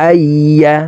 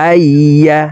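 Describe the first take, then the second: No difference in how they are said.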